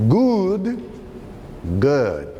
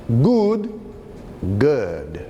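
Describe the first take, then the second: No difference in how they are said.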